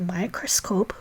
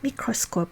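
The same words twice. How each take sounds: First: It is said with English pronunciation. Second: It is said with Hebrew pronunciation. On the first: "So to say microscope" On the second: "we say microscope"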